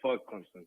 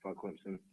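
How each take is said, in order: First: It is said loudly and boldly. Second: It is said quietly and timidly.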